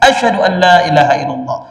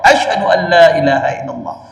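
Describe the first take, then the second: No difference in how they are said.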